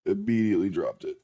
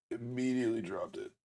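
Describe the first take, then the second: First: Said in the usual way. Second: Soft, deflated under the breath; quiet. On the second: Real, not acted. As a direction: mutter it, let down. Repeats mishap quietly, dejected.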